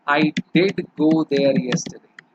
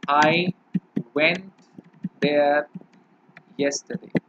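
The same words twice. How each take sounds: First: "did" pressed a little harder and slower; stress on did. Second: Said in the usual way. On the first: Shown as a demonstration. Teacher stressing "did" for students. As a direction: lean on "did" to show emphasis. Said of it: "आप थोड़ा जोर डालकर बोल रहे हैं". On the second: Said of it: "जैसे मैंने बोला".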